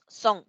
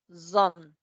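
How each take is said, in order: First: The first sound is a hissing s. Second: The first sound is a buzzing z. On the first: The speaker calls it wrong. "No decimos son" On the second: The speaker calls it right. "decimos zone"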